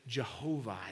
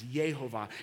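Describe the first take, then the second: First: The name begins with a J sound. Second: The name begins with a Y sound. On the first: "Sometimes we pronounce it Jehovah" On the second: "It's Yehovah"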